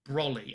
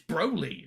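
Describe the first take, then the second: First: The first vowel is short, like 'brolly'. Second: The first vowel is a long 'oh' sound. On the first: This is how the A B Group dub says the name. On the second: This is how Americans say the name.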